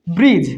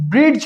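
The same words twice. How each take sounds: First: ব্রিজ with the D silent, lower pitched; correct pronunciation. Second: ব্রিজ with a hard D before the j; wrong pronunciation. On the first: Teacher gives learners the right form, silent D in ব্রিজ. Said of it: "কি উচ্চারিত হয়?". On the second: Teacher shows learners the mistake, D voiced in ব্রিজ. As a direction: sound a D inside ব্রিজ, as in brid-j. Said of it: "ব্রিজ উচ্চারিত হয় না". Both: Shown as a demonstration.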